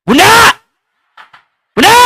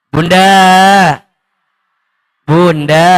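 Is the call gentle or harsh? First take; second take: harsh; gentle. First: The name is called sharply and roughly. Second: The name is called softly and sweetly.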